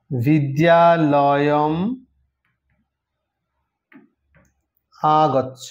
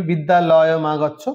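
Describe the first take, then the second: First: বিদ্যালয়ম then আগচ্ছ, slow and separated, lower; sandhi split. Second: বিদ্যালয় মা গচ্ছ run together as one joined phrase; joined form বিদ্যালয় মা গচ্ছ, said plainly at normal pace; sandhi joined. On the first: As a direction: pull বিদ্যালয়ম apart from আগচ্ছ, slowly, with the sandhi undone. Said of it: "আবার যদি সন্ধি বিচ্ছেদ করি". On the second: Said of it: "এটা সন্ধি যুক্ত করেছি". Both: Shown as a demonstration.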